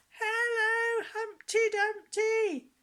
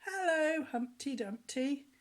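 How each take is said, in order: First: Much higher, louder shout, slow at the end; little girl's shout. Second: Put-on higher, louder chorus of kids; children's reply. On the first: Retold or imitated. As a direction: call out with all her might. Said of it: "shouted so loud". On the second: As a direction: answer back like a hall of children. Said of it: "the boys and girls said".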